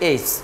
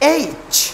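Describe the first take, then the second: First: The letter is said weakly, without force. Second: The letter is said hard, with force. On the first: The speaker calls it wrong. "Normally বলে ফেলে এইচ" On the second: The speaker calls it right. "শক্ত করে বলতে হবে"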